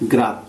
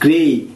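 First: The vowel sounds like cat. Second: The vowel sounds like say. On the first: The speaker calls it wrong. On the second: The speaker calls it right.

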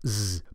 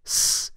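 First: It ends with a voiced, buzzing z sound. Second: It ends with a voiceless, hissing s sound. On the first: The speaker calls it wrong. "Not z" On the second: The speaker calls it right. "but s"

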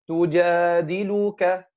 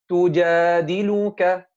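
The two takes are said the same way.

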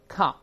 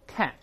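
First: It is said with a British accent. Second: It is said with an American accent. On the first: "第一个在英式翻译法啊，大声里面calf" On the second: "再读美音"

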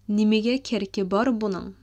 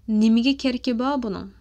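First: The final r of bar is pronounced. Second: The final r of bar is dropped. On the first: "let me read it again in a proper way" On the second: "I didn't really like pronounce the re at the end of bar"

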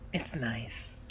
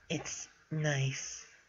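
First: It is read in a plain voice. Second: It is read in a put-on character voice.

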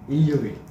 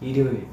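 First: It is said with a Busan dialect accent. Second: It is said with a Seoul accent. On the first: "부산에서는 월요일이라 하잖아요" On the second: "서울에서는 월요일, 금요일, 일요일 이렇게 말하더라고"

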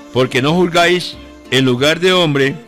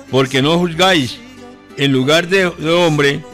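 The two takes are said the same way.

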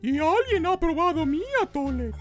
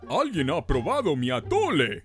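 First: It is said in Mama Bear's medium voice. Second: It is said in Papa Bear's big voice.

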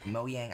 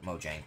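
First: It is pronounced the way Swedish speakers say it. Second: It is pronounced the way American speakers say it. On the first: "I hear Sweden people call it Mojang" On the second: "I hear American people call it Mojang"

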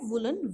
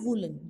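First: The first vowel is short. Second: The first vowel is long. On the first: The speaker calls it right. "व पे छोटे ऊ की मात्रा ही आती है" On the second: The speaker calls it wrong. "ना कि बड़े ऊ की मात्रा... जो कि गलत है"

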